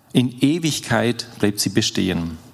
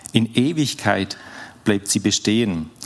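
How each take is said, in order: Both takes have the same delivery.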